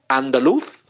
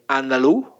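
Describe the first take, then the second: First: The final consonant is pronounced. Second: The final consonant is dropped.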